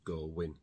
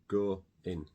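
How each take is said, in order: First: A w sound links the two words. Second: No extra sound is heard between the words.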